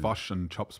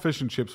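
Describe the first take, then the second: First: It is said in a New Zealand accent. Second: It is said in a plain Australian accent.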